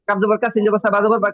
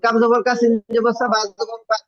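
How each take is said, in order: First: The reading flows on without any stopping. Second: The reading stops and stumbles partway through. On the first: The speaker calls it right. "একটুও কিন্তু আটকায় নাই" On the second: The speaker calls it wrong. "এরকম আটকা যাবে না"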